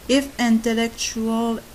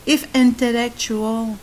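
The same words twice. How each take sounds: The two takes are said the same way.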